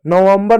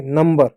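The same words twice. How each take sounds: First: नवंबर with an extra "va" syllable, like November; misreading. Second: नंबर in two syllables, "num-ber"; correct reading. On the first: Teacher warning children off a misreading, three-syllable नवंबर. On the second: Teacher correcting a misreading for children, two-syllable नंबर. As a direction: say नंबर with no "va" in the middle. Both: Shown as a demonstration. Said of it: "नवंबर नहीं नंबर".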